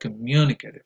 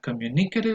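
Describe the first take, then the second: First: The stress is on the second syllable. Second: The stress is on the third syllable. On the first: The speaker calls it right. "Stress goes on the second syllable" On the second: The speaker calls it wrong. "not on the third syllable, like many people might say"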